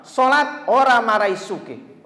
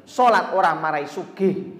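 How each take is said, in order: First: "Sholat orang marai sugih" said slow, higher and louder, "orang" hit hardest; stressed slow repeat. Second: Boss's mocking line. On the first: Retold or imitated. Preacher repeating the boss's jibe to the audience, slow and emphatic. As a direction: hammer each word of the boss's jibe. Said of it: "kata-kata dia pertama". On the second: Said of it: "Tuh, kata-kata dia pertama".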